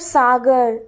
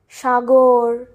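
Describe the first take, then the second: First: The word begins with a plain s sound. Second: The word begins with an sh sound. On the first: This is the Hindi way of saying it. "Sa, we have sagar" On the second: This is the Bengali way of saying it. "in Bengali we have all sha"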